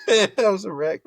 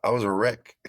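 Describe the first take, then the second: First: Bursting into laughter, high and loud; laughing. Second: Said in the usual way. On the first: Real, not acted. Player laughing at his freshman self to the host, laughing. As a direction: laugh out the line. Laughing repeat of wreck line.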